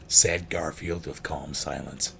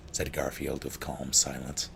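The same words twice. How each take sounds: First: SAID hit louder, line drawn out slowly; slow, deliberate retake leaning hard on "Said"; stress on SAID. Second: Said in the usual way. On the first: Real, not acted. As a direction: punch "Said", then take your time. Line repeated slower, first word louder.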